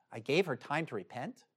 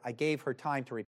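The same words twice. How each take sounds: First: "I gave her time to repent?" with the tune lifting on "repent"; questioning echo. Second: Said in the usual way. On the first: Real, not acted. Preacher echoes a verse to make the congregation think, quiet rising question on "repent".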